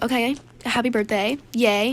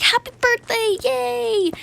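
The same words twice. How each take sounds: First: Understated cheer in an everyday pitch; half-hearted congratulations. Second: Very high, hammed-up congratulations; fake cheer. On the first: Retold or imitated. Player reluctantly playing along with birthday again, half-hearted. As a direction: go through the motions of congratulating. Later, wearier repeat of congratulations. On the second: Player congratulating a suspected gift beggar, high fake cheer. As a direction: cheer it in a squeaky put-on voice.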